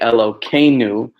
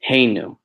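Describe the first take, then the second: First: The middle consonant is a k sound. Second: The middle consonant is an h sound. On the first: The divine name is disguised outside prayer. "we'll say Elokeinu" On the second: The divine name is said as in prayer. "as opposed to"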